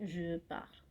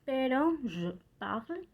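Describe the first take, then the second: First: "Je parle" soft and low, final e silent; French je parle. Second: "je parle" with the e of je half-swallowed, slow; French je parle. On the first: A teacher repeating the correct French form softly to the class. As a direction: say "Je parle" quietly, no final e sound. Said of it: "sino parle". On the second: A French teacher demonstrating to her students, slow and careful. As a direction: say "je parle" slowly, clipping the final e of parle. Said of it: "je sí se pronuncia". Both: Shown as a demonstration.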